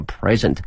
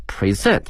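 First: PRES-ent, with the weight up front; stress on first syllable. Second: Pre-SENT, with the weight at the end; stress on second syllable. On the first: Teacher showing students the noun present, first syllable stressed. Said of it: "重音在前面". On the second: Teacher showing students the verb present, second syllable stressed. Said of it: "则变成了present". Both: Shown as a demonstration.

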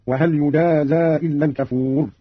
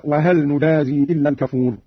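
First: يجازى as "yujaazaa", with y and open final a; passive with ya. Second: Said in the usual way. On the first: Shown as a demonstration. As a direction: slowly, start يجازى on ya and open the zay. (يجازى بالياء وفتح الزاي) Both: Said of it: "قرأ قالون بالياء وفتح الزاي".

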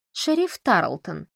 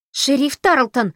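First: Slow, deliberate address of the title; formal demand. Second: Loud, high, drawn-out yell of a name. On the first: Camila presses the sheriff for press comments, slow and formal. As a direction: draw out the sheriff's title coolly. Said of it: "журналистка требует комментариев". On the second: Audrey storms at the sheriff, shrieking loudly. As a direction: howl the sheriff's name in outrage. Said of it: "завопила она". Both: Acted.

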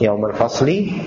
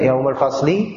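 First: Said in the usual way. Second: Yaumal fasli drawn out slowly, each word spaced, rising at the end; slow prompting. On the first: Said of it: "Eh, yaumal fasli". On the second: Shown as a demonstration. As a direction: spell out yaumal fasli slowly so the student catches it.

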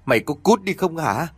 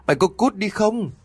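First: Firm, higher-pitched order to get out; first angry warning, raised in pitch; resolute dismissal. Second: Sharply raised pitch, angry ultimatum; final furious warning to get out; escalated resolute dismissal. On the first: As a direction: order him off, no yielding. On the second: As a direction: repeat the order, much higher. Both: A narrator's reading. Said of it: "giọng của bà vẫn kiên quyết lắm".

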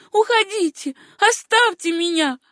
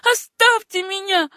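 First: High, loud desperate begging; pleading cry. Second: High desperate plea, louder; pleading. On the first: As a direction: push him away, begging. (высокий умоляющий крик) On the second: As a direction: beg to be left alone. (умоляющим высоким голосом) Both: A narrator's reading. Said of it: "умоляющим голосом промолвила девушка".

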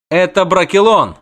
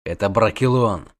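First: High, loud, proud retort; proud declaration. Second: Restrained, stern warning; angry hiss. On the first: Dryad defends her forest to the witcher, proud declaration. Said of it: "гордо проговорила она". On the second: Witcher warns girl of the forest, contained anger. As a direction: warn her grimly without raising the voice. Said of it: "зло зашипел он". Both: A narrator's reading.

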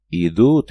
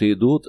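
First: Loud alarmed yell. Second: Loud yell, pitched a little higher. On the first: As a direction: shout the warning. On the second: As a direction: shout it out again. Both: A narrator's reading. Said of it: "заорал призрак Петров".

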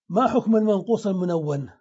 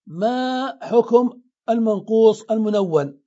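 First: Said in the usual way. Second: ما and حكم drawn out slowly, each term set apart; emphatic question. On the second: Shown as a demonstration. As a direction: pose it deliberately, stretching ما before حكم. Teacher poses key question deliberately.

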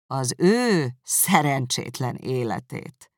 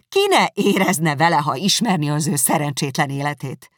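First: Slow, scornful echo of ő szerencsétlen életét; contemptuous. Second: Indignant defence. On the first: Darcy echoing Elizabeth's words back at her, slow and contemptuous. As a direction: drag out "Az ő szerencsétlen életét" with disdain. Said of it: "ismételte Darcy megvetően". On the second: Elizabeth defending Wickham to Darcy, loud and indignant. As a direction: defend him hotly. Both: Acted.

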